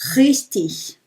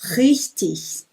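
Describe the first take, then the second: The two takes are said the same way.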